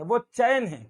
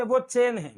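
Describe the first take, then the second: First: चैन said as "chaa-en", a clear double vowel; two-vowel चैन. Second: चेन as in English "chain", one pure vowel; चेन with no glide in the vowel; single-vowel चेन. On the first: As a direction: glide चैन from "aa" into "e". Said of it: "क्योंकि उसमें दो मात्रा लगी है". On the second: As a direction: say चेन with a plain long "e". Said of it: "दो मात्रा वालों को बोलने का तरीका". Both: Shown as a demonstration.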